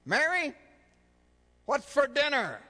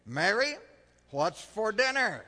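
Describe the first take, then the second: First: Calling Mary louder and higher, fed up; the husband raises his voice right beside her; last, loudest and highest call for dinner. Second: Calling from the door. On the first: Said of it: "for the fourth time". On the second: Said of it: "She just keeps chopping carrots". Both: Acted.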